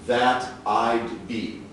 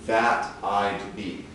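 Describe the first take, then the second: The two takes are said the same way.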